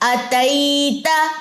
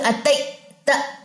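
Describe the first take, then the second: First: The voice flows on without a break. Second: The voice is cut off before the last syllable. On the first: The speaker calls it right. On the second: The speaker calls it wrong.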